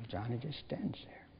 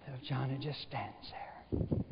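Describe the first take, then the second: First: "Johnny just stands there" whispered, no voice. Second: Said in the usual way. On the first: Shown as a demonstration. Preacher hushing the story as the boy stands silent, whispering. Narration retold, dropped to whisper. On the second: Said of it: "narration, slow then whispered take".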